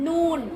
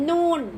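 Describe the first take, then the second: No difference in how they are said.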